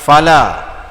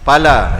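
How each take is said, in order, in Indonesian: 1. Ia dimulai dengan bunyi f yang lembut dan berdesah. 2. Ia dimulai dengan bunyi p yang keras dan tidak beraspirasi. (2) "tu kasar sangat, keras sangat tu"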